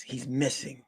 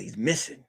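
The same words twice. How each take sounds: First: "missing" falling, said softly; client's quiet answer, "missing" going down; confirming statement. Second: "missing" lifted into a question; detective's query, voice climbing on "missing"; questioning echo. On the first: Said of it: "She goes". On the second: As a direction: repeat it back, rising on "missing". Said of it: "I said". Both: Acted.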